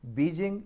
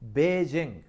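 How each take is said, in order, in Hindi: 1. पहला स्वर लंबी 'ee' ध्वनि है। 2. पहला स्वर 'ay' ध्वनि है। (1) "बीजिंग मिस प्रोनाउंसिएशन है" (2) "बेजिंग है"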